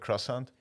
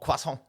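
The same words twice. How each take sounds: First: It is said with a plain English accent. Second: It is said with an exaggerated French accent. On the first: The speaker calls it right. "like if I was to order one in real life" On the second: The speaker calls it wrong. "I don't go croissant"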